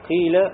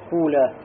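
First: The first vowel is a plain i. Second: The first vowel is a u. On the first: "у нас самый литературный распространенный является аль-кяср" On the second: "и затем, да, дом"

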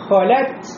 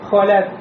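First: The final T ends with an audible breathy puff. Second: The final T has no audible breathy release. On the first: The final letter T can be heard. The speaker calls it right. "вот это появилось, значит, вы уже слышите, что в конце есть буква Т" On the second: The final letter T cannot be heard. The speaker calls it wrong. "если я скажу холят без хамса"

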